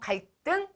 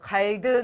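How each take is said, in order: First: The second consonant is tensed, like a hard D. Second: The second consonant is plain, not tensed. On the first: The speaker calls it right. "된소리로 발음을 합니다" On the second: The speaker calls it wrong. "아니고"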